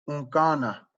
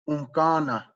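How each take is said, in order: The two takes are said the same way.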